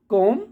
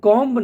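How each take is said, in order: First: The word ends on the m sound, no b. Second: The word ends with an audible b sound. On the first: The speaker calls it right. "कॉम बोलना रहता है" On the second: The speaker calls it wrong. "कॉम्ब नहीं"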